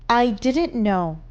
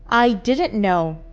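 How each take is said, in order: Both takes have the same delivery.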